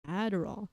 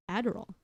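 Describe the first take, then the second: No difference in how they are said.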